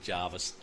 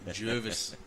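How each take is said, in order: First: The first vowel sounds like 'jar'. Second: The first vowel sounds like 'jer'. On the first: This is how tourists say it. The speaker calls it wrong. "that's not said Jarvis at all" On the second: This is how locals say it. The speaker calls it right. "Jervis is correct"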